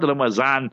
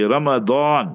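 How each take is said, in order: First: The middle consonant is a Z sound. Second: The middle consonant is a D-like sound. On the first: The speaker calls it wrong. "not Ramazan, like how our people say" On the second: The speaker calls it right. "that is how we must learn the pronunciation properly"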